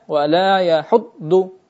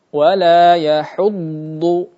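First: The dhad sound is cut short. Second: The dhad sound is drawn out. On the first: The speaker calls it wrong. "tidak dibaca wala yahuddu" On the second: The speaker calls it right. "dibaca dengan memanjangkan suaranya"

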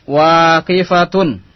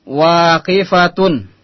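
No difference in how they are said.

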